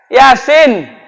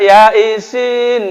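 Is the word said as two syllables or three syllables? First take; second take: two syllables; three syllables. First: It is said smoothly as two syllables. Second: It is split into three syllables, ya-i-sin. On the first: The speaker calls it right. "Yasin, ada i-nya dua" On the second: The speaker calls it wrong. "Waktu salah baca, ya isin"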